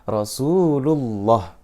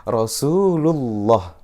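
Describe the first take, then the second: The two takes are said the same way.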